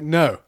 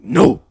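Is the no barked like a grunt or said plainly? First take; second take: plain; barked. First: It is said in a plain ordinary way. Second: It is a short barked grunt.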